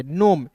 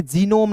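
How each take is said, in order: First: नोम with a silent G, said softly; correct pronunciation. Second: जीनोम said with a hard G, the wrong way; wrong pronunciation. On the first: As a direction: drop the G and say just नोम. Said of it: "N O M E को नोम पढ़ेंगे". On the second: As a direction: voice the G in जीनोम as the mistake to avoid. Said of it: "जीनोम नहीं पढ़ेंगे". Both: Shown as a demonstration.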